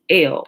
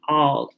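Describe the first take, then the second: First: The vowel sounds like 'eh' in 'bell'. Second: The vowel sounds like 'ah' in 'father'. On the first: The speaker calls it wrong. "you hear it mispronounced L" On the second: The speaker calls it right. "but it's actually all"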